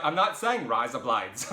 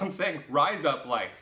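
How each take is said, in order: First: Louder, slower, Australian-style "rise up lights"; exasperated contrast. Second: "rise up lights" higher, louder, drawn out; emphatic correction. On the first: Clearing up the misunderstanding, loud emphatic "rise up lights". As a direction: insist against "rise up lights". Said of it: "I'm like". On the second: Making the Australian guy understand, slow loud separated "rise up lights". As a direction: pull "rise up lights" apart, word by word. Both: Retold or imitated.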